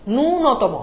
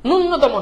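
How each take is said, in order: First: ন্যূনতম with a drawn-out "nuu" and single n; correct ন্যূনতম pronunciation. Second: ন্যূনতম with the n doubled, "nun-notomo"; mispronounced ন্যূনতম. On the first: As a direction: stretch the first vowel of ন্যূনতম, "nuu-notomo". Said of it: "উচ্চারণটা হচ্ছে ন্যূনতম". (ন্যূনতম-এ "নূ" টেনে, একটা ন দিয়ে "নূ-নতম") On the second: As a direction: close the first syllable of ন্যূনতম on n, "nun-notomo". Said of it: "ন্যূনতম না". (ন্যূনতম-এ জোড়া ন দিয়ে ভুল "নুন্নতম" উচ্চারণ) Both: Shown as a demonstration.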